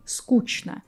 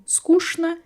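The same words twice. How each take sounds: First: Скучно said as "skooch-na". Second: Скучно said as "skoosh-na". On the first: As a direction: keep ч as "ch" in скучно. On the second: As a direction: turn the ч in скучно into "sh". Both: Shown as a demonstration. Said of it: "how many people are".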